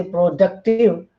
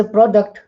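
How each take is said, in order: First: "productive" with the stress on "duc"; stress on second syllable. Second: "product" with the stress on "pro"; stress on first syllable. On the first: Lecturer showing a stress shift, "productive" stressed on duc. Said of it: "stress is on second syllable". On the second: Lecturer contrasting word forms for students, "product" stressed on pro. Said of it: "our stress is on first syllable". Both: Shown as a demonstration.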